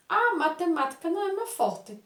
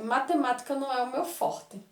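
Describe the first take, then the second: First: High, bright exclamation on Ah; exclaimed excuse. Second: Said in the usual way. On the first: Shown as a demonstration. Boy exclaiming his excuse to his mother, high and emphatic. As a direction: throw the Ah up as an exclamation. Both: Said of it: "vem um pontinho de exclamação".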